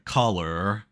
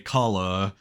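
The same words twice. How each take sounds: First: American accent, with the final R clearly pronounced. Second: Australian accent, with the final R barely pronounced. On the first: "an American would say color" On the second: "an Australian would just say color"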